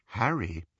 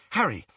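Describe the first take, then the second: First: Gentle, careful address; sickbed voice. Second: Higher, urgent call of the name; impatient. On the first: Hermione crouching before Harry, gently concerned. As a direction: say the name as to a patient. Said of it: "voice he associated with visiting the very sick". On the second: Hermione wanting the locket from Harry, impatient. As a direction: demand his attention at once. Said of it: "she said impatiently". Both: A narrator's reading.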